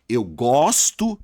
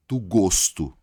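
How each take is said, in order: First: Slow "gosto" with a wide-open O. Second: Slow "gosto" with a closed O. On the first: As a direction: stretch the open O of the verb "gosto". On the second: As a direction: round the O of the noun "gosto". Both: Shown as a demonstration. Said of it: "só que o som muda".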